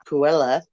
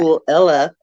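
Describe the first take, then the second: First: The two words are run together quickly. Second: The two words are said slowly and separately.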